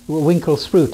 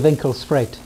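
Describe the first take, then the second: First: The name is said with an English pronunciation. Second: The name is said with an Afrikaans pronunciation. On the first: This is what English speakers call the place. The speaker calls it wrong. "the English mispronounce it" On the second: This is the proper local name of the place. The speaker calls it right. "It should be"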